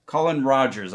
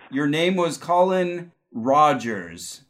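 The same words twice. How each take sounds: First: Said in the usual way. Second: Slow, drawn-out psychic reveal; psychic hotline. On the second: Acted. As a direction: spell out "your name was Colin Rogers" slowly, like a vision. Psychic reveals a past-life name.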